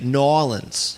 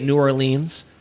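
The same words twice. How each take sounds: First: It is said the way Southerners say it. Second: It is said the way Easterners say it.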